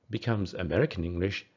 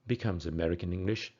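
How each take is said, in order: The two takes are said the same way.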